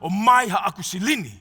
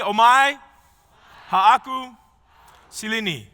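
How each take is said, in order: First: It is said in a gritty, guttural voice. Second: It is said in a plain, ordinary voice.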